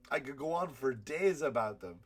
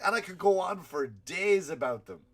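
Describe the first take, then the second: First: Said in the usual way. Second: Higher, louder stress on "days"; punchy, raised-voice emphasis on "days"; emphatic insistence. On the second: Real, not acted. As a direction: lean hard into "days", pitched up and loud. Emphatic first take, then repeated.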